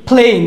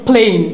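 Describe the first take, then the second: Both takes have the same delivery.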